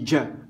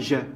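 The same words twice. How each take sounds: First: It begins with a 'dj' sound, d before j. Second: It begins with a soft 'j' sound, no d. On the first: The speaker calls it right. "on dit Ja, j'insiste sur le D avant le J" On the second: The speaker calls it wrong. "on ne dit pas Ja"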